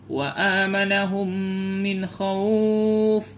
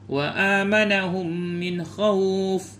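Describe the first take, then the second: First: The vowel in the last word is held moderately long. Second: The vowel in the last word is held briefly. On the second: "Jadi boleh dua"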